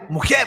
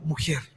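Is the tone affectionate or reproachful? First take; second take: reproachful; affectionate. First: It is said sharply, as a reproach. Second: It is said warmly and affectionately.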